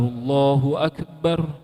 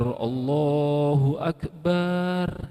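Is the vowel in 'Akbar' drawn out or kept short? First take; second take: short; drawn out. First: The vowel in Akbar is kept short. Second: The vowel in Akbar is drawn out long. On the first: The speaker calls it right. "yang sebenarnya yang, yang tepat seperti itu" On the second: The speaker calls it wrong. "Baknya ditarik"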